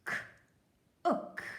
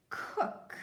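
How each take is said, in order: First: "K-ook" split into k then short oo; sounding out. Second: Said in the usual way. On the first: Shown as a demonstration. Teacher sounding out cook for kids. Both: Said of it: "help me read".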